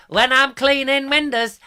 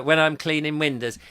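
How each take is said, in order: First: Sung high and loud in comic style; hammed-up music-hall singing impression. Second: Said in the usual way. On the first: Host doing an old film comedian's song, high singing voice. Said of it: "the old [name] films". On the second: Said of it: "remember the words to".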